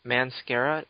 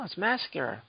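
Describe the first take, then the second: First: "Mascara" said as man-SCARE-uh, questioning; mispronounced as "man-scara". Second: "mascara" said mass-CARE-uh, without an n; corrected pronunciation "mass-cara". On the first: Retold or imitated. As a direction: put an n into "Mascara": "manscara", rising. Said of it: "It's mascara for men". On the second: Real, not acted. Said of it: "I wear, no".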